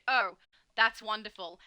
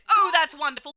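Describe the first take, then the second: First: It is said flatly with little pitch movement. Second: It is said warmly with lively, varied pitch. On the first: The writer seems upset or offended. "They read" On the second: The writer is genuinely pleased. "people don't read"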